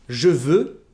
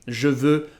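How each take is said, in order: The two takes are said the same way.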